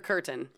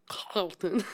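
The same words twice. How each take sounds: First: The first vowel is a plain English 'ur' sound. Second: The first vowel is a rounded German umlaut sound. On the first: "I'm calling him Peter Curtin" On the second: "I fucking looked up how it's pronounced. ... It's got an umlaut over the U"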